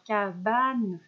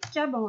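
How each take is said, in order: First: The word ends with a clearly pronounced n. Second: The word ends in a nasal vowel, no n. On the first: The final letter e is written. The speaker calls it right. "on rajoute le E pour avoir cabane" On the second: The final letter e has been left off. The speaker calls it wrong. "si je m'arrête ici, est-ce que j'entends le N? Non"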